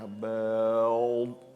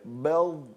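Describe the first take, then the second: First: The sound is drawn out very slowly. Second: The sound is said at normal speed. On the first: The speaker calls it wrong. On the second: The speaker calls it right.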